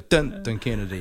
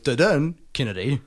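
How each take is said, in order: First: The stress falls on the first syllable. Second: The stress falls on the second syllable.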